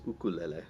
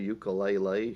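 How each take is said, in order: First: It is pronounced the Hawaiian way. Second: It is pronounced the English way. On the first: This is the local name for the instrument. "that's how we say a Hawaiian word in Hawaii" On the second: This is how outsiders name the instrument. "if you want to call it a ukulele"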